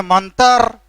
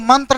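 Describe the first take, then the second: First: मंत्र said "mantar", a vowel before the r; Khortha pronunciation. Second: मंत्र said "mantra", t and r joined; standard pronunciation. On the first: Teacher showing how we say it, Khortha "tar" in मंत्र. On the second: Teacher citing the form Khortha speakers avoid, standard tr in मंत्र. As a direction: keep the tr cluster tight in मंत्र. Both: Shown as a demonstration. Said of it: "हम लोग मंत्र नहीं बोलते हैं".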